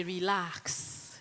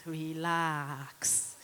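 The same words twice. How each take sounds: First: Said in the usual way. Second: Relax drawn out lower and softer; soothing relax. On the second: Shown as a demonstration. Telling the audience to relax, soothing and lower. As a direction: ease it down like a calm sigh. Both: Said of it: "one of the other things I like to say".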